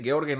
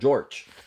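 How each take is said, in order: First: The name is pronounced the German way. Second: The name is pronounced the English way. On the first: The speaker calls it right. "fíjense como nombro" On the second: The speaker calls it wrong. "si lo dice en inglés, usted diría"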